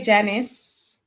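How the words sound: The name is said with an American pronunciation. "That's the American pronunciation"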